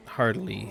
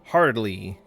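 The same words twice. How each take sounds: First: Said in the usual way. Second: Heartily punched out loud and firm; emphatic heartily. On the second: Acted. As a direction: lean hard on heartily as a mock toast. Emphatic word, then repeated.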